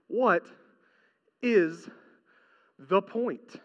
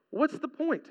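First: Each word set apart by long pauses; slow rhetorical question. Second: What's the point said softly, in one breath; soft repeat. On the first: Preacher asking the congregation, slow and deliberate. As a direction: let what, is and the point hang alone. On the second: Preacher repeating his question to the congregation, quietly. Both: Acted.

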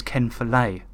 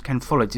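First: Follett said fuh-LAY, stress on the last syllable, no final t; corrected pronunciation. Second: Follett said FOL-it, stress on the first syllable, ending in a t; wrong pronunciation. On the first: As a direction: Ken Follett as fuh-LAY, French style. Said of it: "it's Ken Follett". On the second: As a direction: Ken Follett the usual English way, FOL-it. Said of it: "his name isn't pronounced Ken Follett". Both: Shown as a demonstration.

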